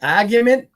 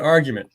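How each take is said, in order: First: Argument said as a-gyument, front a, no r; argument with a flat a. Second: Argument said as ar-gyument, open ah with the r; argument with a broad ar. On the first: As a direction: argument starting like cat, r dropped. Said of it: "or the argument". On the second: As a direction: argument starting like car. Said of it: "Is that the argument". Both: Shown as a demonstration.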